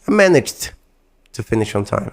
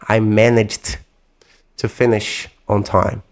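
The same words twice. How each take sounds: First: It is said fast and naturally. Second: It is said slowly, with exaggerated care.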